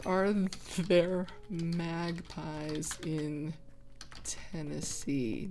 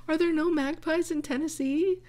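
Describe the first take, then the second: First: Slow and drawn out, as if typing; slow dictation. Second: Pitched high in disbelief; higher, baffled wonder; surprised question. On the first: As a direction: spell out the search slowly. Slowly dictating while googling. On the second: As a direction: ask it as if the idea is absurd. Doubting whether magpies exist there. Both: Real, not acted.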